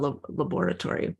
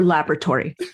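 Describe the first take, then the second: First: It is said in a non-American pronunciation. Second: It is said in an American pronunciation.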